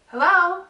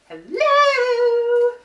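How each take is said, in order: First: It is said in a toned-down, calmer way. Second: It is said with exaggerated, high energy.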